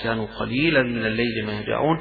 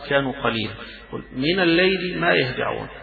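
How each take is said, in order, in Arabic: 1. الكلام يستمر دون وقف بعد 'qalilan'. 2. يوجد وقف بعد كلمة 'qalilan'. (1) "الأجمل والأفضل والأصوب أن الاتصال" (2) "الوقف على قليل ويبدأ من الليل ما يهجعون"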